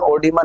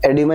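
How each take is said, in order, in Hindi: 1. यह शब्द 'o' की आवाज़ से शुरू होता है। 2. यह शब्द 'e' की आवाज़ से शुरू होता है। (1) "ओडिमा नहीं बोलेंगे" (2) "एडिमा ही बोलते हैं"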